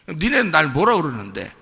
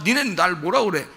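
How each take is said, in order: First: The question sounds sneering and mocking. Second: The question sounds sincere, without mockery. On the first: The disciples and people are being scorned. The speaker calls it wrong. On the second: The disciples are being genuinely asked. The speaker calls it right.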